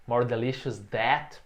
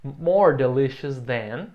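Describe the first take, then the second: First: That said instead of than, slowly, as the common mistake; wrong version. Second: Than said clearly, slow and louder; correct version. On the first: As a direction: show the learner's error with that. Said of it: "O erro comum aqui é usar o that". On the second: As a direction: model the right form with than. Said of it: "Então". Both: Shown as a demonstration.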